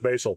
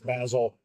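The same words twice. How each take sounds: First: Basil is said in a non-British way. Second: Basil is said in a British way.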